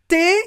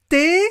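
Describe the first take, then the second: No difference in how they are said.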